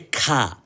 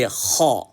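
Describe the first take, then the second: First: The letter is said light, with a thin mouth. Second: The letter is said heavy, with a full mouth. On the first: The speaker calls it wrong. "we don't say ka" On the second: The speaker calls it right. "we say ha"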